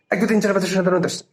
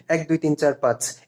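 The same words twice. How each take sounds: First: Numbers blurred together at top speed; gabbled counting with no gaps between words; rushed counting. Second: A bit faster counting. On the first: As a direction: rattle off the count so it smears. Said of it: "কিছু কি বুঝতে পারলা". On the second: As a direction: count a little quicker, still clear. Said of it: "এবার speed একটু বাড়িয়ে দেই". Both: Shown as a demonstration.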